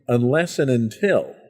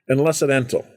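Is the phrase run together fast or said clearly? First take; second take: clearly; run together. First: It is said clearly, word by word. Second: It is said fast and run together.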